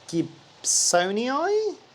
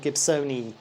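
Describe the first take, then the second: First: The final vowel sound is drawn out and doubled. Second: The final vowel sound is a single short sound. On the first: The speaker calls it wrong. "I do the eye and I drag the sound" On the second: The speaker calls it right. "it just sounds like an eye"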